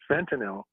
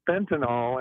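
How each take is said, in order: First: The last syllable sounds like 'nil'. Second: The last syllable sounds like 'null'. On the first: The speaker calls it right. "there's a Y at the end of the, uh, you know, it's not a null" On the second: The speaker calls it wrong. "it's not pronounced that way"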